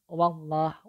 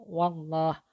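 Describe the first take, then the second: Both takes have the same delivery.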